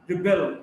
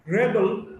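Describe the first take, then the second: First: "rebel" as ri-BEL; weak start, strong BEL in "rebel"; stress on second syllable. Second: "rebel" as REB-el; stress on first syllable. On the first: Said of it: "stressed in the second syllable". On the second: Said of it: "stressed in the first syllable". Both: Shown as a demonstration.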